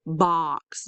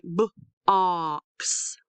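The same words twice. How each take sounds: First: Said in the usual way. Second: B-, pause, drawn-out ox; sounded out. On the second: Shown as a demonstration. Teacher breaks down picture word, b-, ox in parts. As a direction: split box into b- and ox. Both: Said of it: "Did you hear ah".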